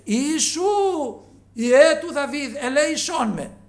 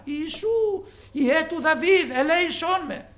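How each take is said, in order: First: Loud, high, slow pleading cry; crying out louder. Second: High, loud pleading shout; loud cry for mercy. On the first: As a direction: drag out each word, begging to be heard. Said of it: "πολλό μάλλον έκραζε". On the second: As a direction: shout it so he must stop. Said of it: "φώναζε δυνατά". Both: Retold or imitated.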